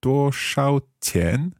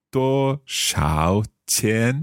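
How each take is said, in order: First: 多少钱 slow, pitched higher, tones off; learner's slow first try at 多少钱 with the tones wrong. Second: 多少钱 slow, 多 high level, 少 dipping, 钱 rising; careful corrected retry of 多少钱; corrected tones. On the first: Learner recalls the phrase and misses the tones. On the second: Learner retries after the teacher's model. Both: Shown as a demonstration. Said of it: "Got my tones wrong".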